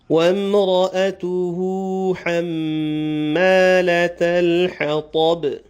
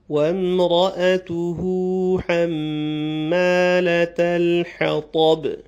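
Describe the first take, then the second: The two takes are said the same way.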